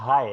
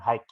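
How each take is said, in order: First: The word ends in a vowel, no k. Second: The word ends with a k sound. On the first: The speaker calls it right. "dibaca high ya" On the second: The speaker calls it wrong. "bukan hike ya"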